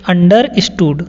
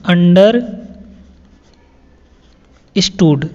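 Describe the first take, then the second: First: Said in the usual way. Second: "understood" stretched very long, syllable by syllable; drawn-out word. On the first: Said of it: "teacher repeats word". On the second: Shown as a demonstration. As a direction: draw the word out slowly for learners. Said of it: "teacher stretches the word". (शब्द को खींचकर धीरे बोलना)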